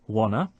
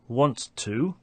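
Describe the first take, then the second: First: Both t sounds are dropped entirely. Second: Both t sounds are clearly pronounced.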